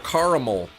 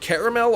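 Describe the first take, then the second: First: The first syllable sounds like 'car'. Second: The first syllable sounds like 'care'. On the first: "or car?" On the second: "Is it care"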